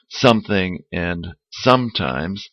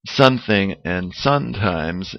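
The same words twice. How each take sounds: First: Both words have an m sound before the second syllable. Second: Both words have an n sound before the second syllable. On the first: The speaker calls it right. "instead of" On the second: The speaker calls it wrong. "Spanish speakers tend to say"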